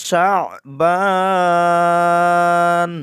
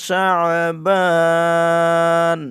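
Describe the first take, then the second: Both takes have the same delivery.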